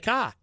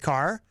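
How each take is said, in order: First: The final R is dropped, Boston style. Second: The final R is clearly pronounced.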